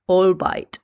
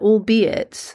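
First: The word is pronounced like a German word. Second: The word is pronounced the usual English way. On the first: The speaker calls it wrong. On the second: The speaker calls it right.

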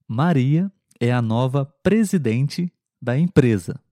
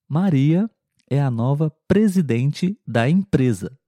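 The two takes are said the same way.

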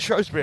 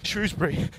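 First: It is said the posh way. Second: It is said the working-class way. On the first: The speaker is posh. "You pronounce it Shrewsbury if you're posh" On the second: The speaker is working class. "you pronounce it Shrewsbury if you're working class or post-working class"

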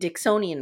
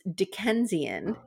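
First: The middle syllable sounds like 'son'. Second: The middle syllable sounds like 'ken'. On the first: The speaker calls it wrong. "I realized I was saying Dicksonian wrong" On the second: The speaker calls it right. "It's Dickensian is how we describe things related to Charles Dickens"

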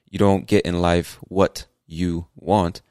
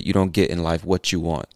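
First: 'What' and 'you' are said separately, with a clear T. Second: 'What' and 'you' are joined by a 'ch' sound. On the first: "instead of saying" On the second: "you say"

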